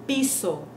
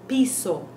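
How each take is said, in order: The two takes are said the same way.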